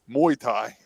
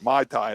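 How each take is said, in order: First: The first word sounds like 'moo-ay'. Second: The first word sounds like 'my'. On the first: It names the fighting sport. The speaker calls it right. "Muay Thai is the fighting" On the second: It names a cocktail. The speaker calls it wrong. "I've been pronouncing it Mai Tai. That's a drink"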